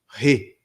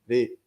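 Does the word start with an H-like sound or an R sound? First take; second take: H-like sound; R sound. First: The word begins with an H-like sound. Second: The word begins with an R sound. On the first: The speaker calls it wrong. "Se começasse com H, seria re" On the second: The speaker calls it right. "quando a palavra começa com R, no caso aqui é re"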